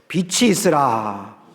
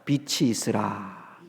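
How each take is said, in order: First: It is said louder and more forcefully. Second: It is said at a normal, softer volume.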